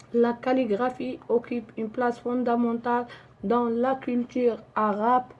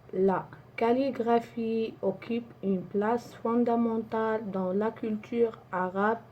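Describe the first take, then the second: Both takes have the same delivery.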